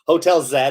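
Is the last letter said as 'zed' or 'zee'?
zed. The letter is said 'zed', Canadian style.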